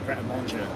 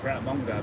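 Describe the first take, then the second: First: The last word sounds like 'manjay'. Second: The last word sounds like 'manga'. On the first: "it's actually Pret a Manger" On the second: "I think you should call it Pret a Manga"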